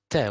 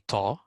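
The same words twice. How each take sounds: First: The letter is pronounced light, without a full mouth. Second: The letter is pronounced heavy, filling the mouth. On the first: The speaker calls it right. "we say ta" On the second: The speaker calls it wrong. "We don't say ta. We don't say it uh, mufakham"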